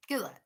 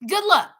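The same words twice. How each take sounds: First: Dropped low and soft; quiet sarcastic afterthought; hushed aside. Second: Higher and louder mock cheer; bright sarcastic farewell; sarcastic good luck. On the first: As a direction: mutter it under your breath. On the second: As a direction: toss it off with scorn. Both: Real, not acted. Sarcastic good luck, then hushed.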